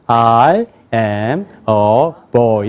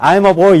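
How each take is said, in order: First: Put-on "I am a boy" lower and very slow; English-style vocalization. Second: Higher, louder Korean-style English reading; Korean-accented English. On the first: Teacher showing how he will read, "I am a boy" low and stretched. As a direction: draw out each word of "I am a boy" in a low voice. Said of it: "어떻게 읽냐면". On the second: Teacher showing the reading he will drop, in Korean-accented English. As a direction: read it the Korean way, pitched up. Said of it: "한국식으로 읽지 않겠어요". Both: Shown as a demonstration.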